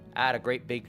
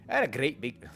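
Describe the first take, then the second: First: It is spoken in a Southern American accent. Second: It is spoken in a Scottish accent. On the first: The speaker calls it right. "Southern accent, southern accent" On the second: The speaker calls it wrong. "He's not Scottish"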